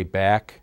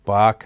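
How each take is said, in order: First: Bach said like "back"; guessed pronunciation. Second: Bach said like "bock"; alternative pronunciation. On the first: Speaker unsure of the pastor's surname, guessed pronunciation. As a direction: say Bach with the short a of "cat". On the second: Speaker offers another reading of the pastor's surname, alternative pronunciation. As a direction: say Bach with an open "ah" vowel. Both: Real, not acted. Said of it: "I don't know how to pronounce it".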